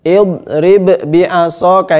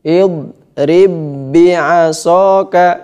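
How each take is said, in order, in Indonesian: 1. Ba pertama dilafalkan terpisah sebelum ba kedua. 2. Kedua bunyi ba menyatu menjadi satu ba yang bertasydid. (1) "Ini salah. ... itu izhar" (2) "inilah disebut dengan idgham mutamatsilain"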